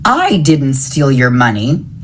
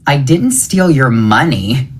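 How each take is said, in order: First: The stress falls on the word I. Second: The stress falls on the word money. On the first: Someone else took the money. "It was someone else" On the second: Something other than money was taken. "It was something else"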